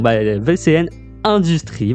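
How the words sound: Industries is pronounced the French way. The speaker calls it right. "voilà, à la française"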